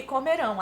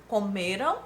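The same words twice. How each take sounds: First: "comerão" with stress on final RÃO; stress on last syllable. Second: "Comeram" with stress on ME; stress on penultimate syllable. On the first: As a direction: shift the weight to RÃO in "comerão". ("comerão" com a tônica no RÃO) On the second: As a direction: let RAM in "Comeram" stay unstressed after ME. ("Comeram" com a tônica no ME) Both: Shown as a demonstration. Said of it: "até a pronúncia é diferenciada".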